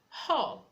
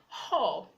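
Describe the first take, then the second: The two takes are said the same way.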